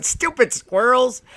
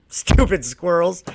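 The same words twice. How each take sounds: First: Higher, slow gloating Stupid squirrels; mock gloat. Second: Slow, drawn-out scorn on squirrels; mock scorn. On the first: Walking away from squirrels, slow higher gloat. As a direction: gloat it slowly, a bit higher. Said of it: "walk away laughing, going". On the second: Mocking squirrels, slow scornful sneer. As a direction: sneer it slowly. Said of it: "I'm gonna make a bunch of comments".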